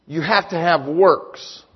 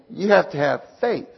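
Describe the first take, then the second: First: "works" set apart and landed firmly; slow, measured line leaning on "works"; stress on works. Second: "faith" set apart as the counterpoint; measured line leaning on "faith"; stress on faith. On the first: Preacher giving James's side to the congregation, stress on works. Contrasting James with Paul's claim. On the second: Preacher giving Paul's side to the congregation, stress on faith. Contrasting Paul with James's claim. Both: Shown as a demonstration.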